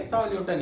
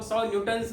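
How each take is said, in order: First: सौ न्यूटन said with no s on न्यूटन; correct unit form. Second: सौ न्यूटन्स with an s ending on न्यूटन्स; wrong plural. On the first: Teacher gives the class the correct form. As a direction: close न्यूटन without any s. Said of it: "ही बोलेंगे". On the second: Teacher demonstrates the plural students should avoid. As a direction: add the s to न्यूटन्स as the error. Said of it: "नहीं बोलेंगे". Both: Shown as a demonstration.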